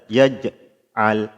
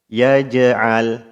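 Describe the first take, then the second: First: There is a break after the bounced sound. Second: The bounce flows straight on without a gap. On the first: The speaker calls it wrong. "Jangan sampai kita baca seperti ada jeda" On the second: The speaker calls it right. "pantulannya harus mengalir suaranya"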